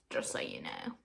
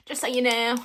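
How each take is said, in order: First: Low, soft throwaway; quiet aside. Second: Louder Southern-accented aside. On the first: Telling listeners about her accent, low quiet aside. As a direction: let it drop low and soft. First take of repeated aside. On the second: Telling listeners about her accent, louder Southern twang. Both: Shown as a demonstration.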